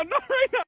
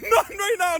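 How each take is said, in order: First: Higher shouted plea without the laugh; a last yelp of panic; high desperate plea. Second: Higher, slow, half-laughing shout; laughing plea. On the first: Nephew repeating the plea to auntie, higher panicked shout. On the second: Nephew begging auntie not to abandon him, laughing shout. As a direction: beg through laughter, dragging it out. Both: Retold or imitated.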